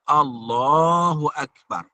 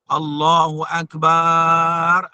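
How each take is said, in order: First: The final syllable is kept short. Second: The final syllable is drawn out long. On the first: The speaker calls it right. "Jadi yang betulnya" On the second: The speaker calls it wrong. "Ataupun memanjangkan bar. ... salah juga. Batal"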